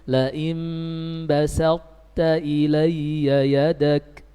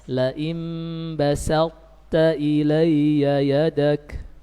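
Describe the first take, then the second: The two takes are said the same way.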